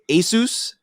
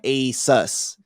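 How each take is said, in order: First: The second syllable sounds like 'Zeus'. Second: The second syllable sounds like 'us'. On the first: "say Zeus" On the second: "put us like Asus"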